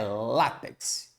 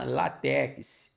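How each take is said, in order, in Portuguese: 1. A tônica está na primeira sílaba. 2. A tônica está na última sílaba. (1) "na verdade a sílaba tônica é o lá" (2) "no dia a dia a gente ouve demais"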